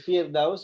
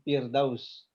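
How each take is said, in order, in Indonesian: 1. Kata ini dimulai dengan bunyi F. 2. Kata ini dimulai dengan bunyi P. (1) "Firdaus itu pakai F" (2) "Bukan pakai P. Ya, bukan Firdaus"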